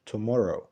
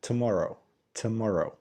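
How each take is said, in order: First: "tomorrow" as "too-MORROW"; overfull first syllable. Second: "tomorrow" as "tuh-MAR-oh"; snatch the first vowel of "tomorrow"; reduced first syllable. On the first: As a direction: give "tomorrow" a full oo at the start. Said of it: "ما بنقولش". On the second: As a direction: schwa after t in "tomorrow". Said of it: "بنقول ت". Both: Shown as a demonstration.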